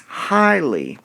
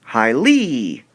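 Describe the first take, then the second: First: "highly" said HIGH-ly, first syllable punched; natural "highly" with firm weight on HIGH; stress on first syllable. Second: Strange-sounding "highly", weight thrown onto -LY; stress on last syllable. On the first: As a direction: hit HIGH in "highly", let -ly fall away. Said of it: "high part". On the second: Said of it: "You might sound a little strange". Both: Shown as a demonstration.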